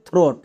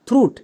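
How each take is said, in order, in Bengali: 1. স্বরধ্বনিটি oh উচ্চারণ। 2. স্বরধ্বনিটি oo উচ্চারণ। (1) "উচ্চারণ হবে থ্রোট" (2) "এটা আমাদের একদমই ভুল"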